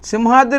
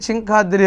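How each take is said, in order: First: The name begins with a clear 'sim' sound. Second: The name begins with a garbled 'chin' sound. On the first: The speaker calls it right. "సింహాద్రి అంటానికి" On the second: The speaker calls it wrong. "చింకాద్రి అనేవాడు"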